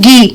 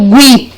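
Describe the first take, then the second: First: The u is silent, like 'ghee'. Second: The u is sounded, like 'gwee'. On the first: The speaker calls it right. "Eu falo Gui" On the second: The speaker calls it wrong. "Eu não falo Gui"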